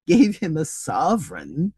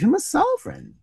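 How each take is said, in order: First: Mild mock shout. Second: Higher-pitched exclamation of dismay; dismayed cry. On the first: Trevor echoing Hughie's blunder, incredulous mild shout. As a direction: repeat it slowly in amused disbelief. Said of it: "shouted Trevor". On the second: Hughie realising he tipped a baron, dismayed cry. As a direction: cry out as the blunder sinks in. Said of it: "cried Hughie". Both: A narrator's reading.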